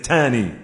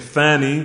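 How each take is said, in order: First: The first consonant is a 't' sound. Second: The first consonant is a 'th' sound. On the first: "They may pronounce a tha like a ta" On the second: "instead of saying fani"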